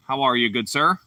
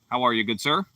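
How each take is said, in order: Both takes have the same delivery.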